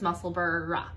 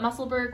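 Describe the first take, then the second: First: The ending does not sound like Pittsburgh. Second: The ending sounds like the end of Pittsburgh. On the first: This is the accepted local pronunciation. "We know that it's" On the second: This is the speakers' habitual way of saying it. "we're going to continue to call it"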